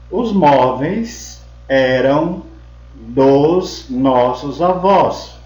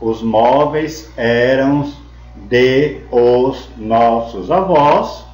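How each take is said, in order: First: De and os merge into one syllable. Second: De and os are said as separate syllables. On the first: The speaker calls it right. "a gente junta, une o de mais o o, ou mais os, e fica dos" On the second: The speaker calls it wrong. "Em vez da gente falar"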